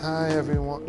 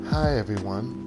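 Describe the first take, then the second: First: The character voice sounds tense, not laid back. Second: The character voice sounds relaxed and laid back. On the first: The speaker calls it wrong. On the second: The speaker calls it right. "It was like Freya, but supposed to be more laid back"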